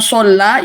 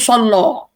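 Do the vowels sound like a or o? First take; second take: a; o. First: The vowels sound like a. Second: The vowels sound like o. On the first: This is the standard form. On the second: This is how it is said in Morocco.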